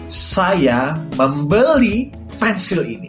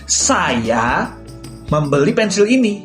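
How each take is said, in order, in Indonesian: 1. Kata membeli ditekankan. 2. Kata saya ditekankan. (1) "Aku menekankan pada kata membeli" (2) "aku akan menekankan pada kata saya"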